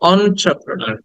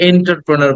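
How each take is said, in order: First: The word begins with an 'on' sound. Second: The word begins with an 'en' sound. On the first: The speaker calls it right. "শব্দটা হচ্ছে অন্ট্রাপ্রনার" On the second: The speaker calls it wrong. "আমরা এটাকে এন্টারপ্রেনার বলি"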